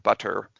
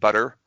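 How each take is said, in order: First: The middle consonant is a puffed T. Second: The middle consonant is a quick flap. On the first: "with an actual T, an aspirated T" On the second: "that's a flap in the middle"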